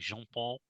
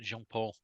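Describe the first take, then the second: First: The name is said with a French accent. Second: The name is said with a local English accent. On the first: "if I'd said it like Jean Paul" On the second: "I just never said it with accent like Lorient"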